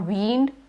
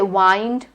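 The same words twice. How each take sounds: First: The vowel is a long E sound. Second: The vowel is a long I sound. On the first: "or wind" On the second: "You don't say wind"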